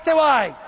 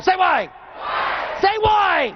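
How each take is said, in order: First: Said in the usual way. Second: Shouted call. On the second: Acted. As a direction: demand the crowd answer you. Crowd call-and-response, pushing harder.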